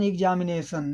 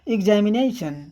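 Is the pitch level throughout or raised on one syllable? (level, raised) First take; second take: level; raised. First: All syllables are said at an even pitch. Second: The pitch jumps high on one syllable. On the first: "Hindi में उच्चारण करते हैं तो सब कुछ समान" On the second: "एग्जामिनेशन यहाँ हाई पिच हुई है"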